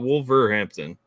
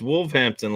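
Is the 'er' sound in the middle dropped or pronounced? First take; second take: pronounced; dropped. First: The middle 'er' sound is clearly said. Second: The middle 'er' sound is left out. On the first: "like not Wolverhampton" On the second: "you didn't pronounce the E R. I thought you said it was just Wolverhampton"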